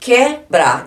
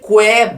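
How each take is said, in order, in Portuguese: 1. O U depois do K é mudo. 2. O U depois do K é pronunciado.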